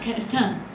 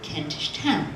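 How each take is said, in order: First: The words are run together, like 'Kentiston'. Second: Both words are said fully and distinctly. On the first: This is close to the original medieval form of the name. "more similarly pronounced like it was in the twelfth century" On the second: This is the later, more precise form of the name. "we got more specific about our pronunciation"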